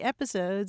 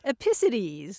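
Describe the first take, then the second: First: The stress falls on the usual first syllable. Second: The stress is moved to an unusual syllable. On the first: The speaker calls it right. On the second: The speaker calls it wrong.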